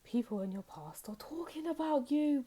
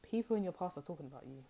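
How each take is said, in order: First: Much higher, theatrical announcement; dramatic reveal. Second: Said in the usual way. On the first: Shown as a demonstration. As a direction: announce it like big juicy news.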